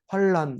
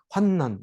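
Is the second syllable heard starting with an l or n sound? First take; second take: l; n. First: The second syllable begins with an l sound. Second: The second syllable begins with an n sound. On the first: The speaker calls it wrong. "우리가 자꾸 발음을 할 때 환난 이렇게 하기가 쉽습니다" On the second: The speaker calls it right. "근데 환난 이렇게 읽어야 돼요"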